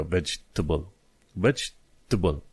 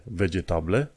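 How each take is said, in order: First: "vegetable" as "vedge-tuh-bl"; correct reduced pronunciation. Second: "vegetable" with every E sounded; wrong, spelled-out pronunciation. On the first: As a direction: skip the middle E and A in "vegetable". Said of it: "E-ul și A-ul nu se pronunță". ("vegetable" fără al doilea E și fără A) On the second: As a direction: read "vegetable" letter by letter, ve-ge-ta-ble. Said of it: "nu pronunți litera E". ("vegetable" cu toate literele pronunțate) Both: Shown as a demonstration.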